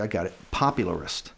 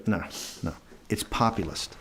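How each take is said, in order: First: Popularist again, pop-u-lar-ist; mild imitation insisting on popularist; repeating the wrong word. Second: Populist, pop-yu-list, said firmly; second correction to populist; correcting again. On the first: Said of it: "And he goes". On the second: Retold or imitated. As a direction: insist quietly on populist. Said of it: "And I go".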